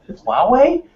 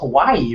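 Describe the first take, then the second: First: The name sounds like wah-way. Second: The name sounds like Hawaii. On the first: The speaker calls it right. "Only reason I know how to pronounce it is because Lon said it" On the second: The speaker calls it wrong. "I thought it was Hawaii or something crazy like that"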